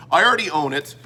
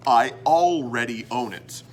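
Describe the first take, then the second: First: "already" slurred into "ardy"; mushed-up words. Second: "already" pronounced fully as all-ready; lower, careful "already" with a clear l; careful articulation. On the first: Real, not acted. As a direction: swallow the l in "already". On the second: Shown as a demonstration. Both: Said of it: "when I mush up words".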